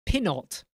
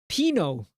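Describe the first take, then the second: First: "Pinot" as PIN-ot; short i and a final T in "Pinot"; sounded-T Pinot. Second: "Pino" as PEE-no; long ee and no T in "Pino"; silent-T Pinot. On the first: Streamer comparing "Pinot" as PIN-ot, sounded T. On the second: Streamer comparing "Pino" as PEE-no, silent T. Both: Shown as a demonstration. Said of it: "How do you pronounce it?".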